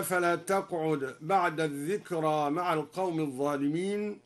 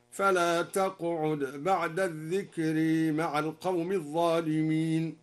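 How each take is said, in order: First: "الذكرى" ending open a; standard reading. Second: "الذكرى" ending bent toward e; imala. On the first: Teacher quoting the standard reading, plain chant. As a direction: end "الذكرى" with a plain long a. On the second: Teacher demonstrates al-Duri's imala, chanted. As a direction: lean the last vowel of "الذكرى" toward e. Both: Shown as a demonstration. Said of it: "أمال الذكرى".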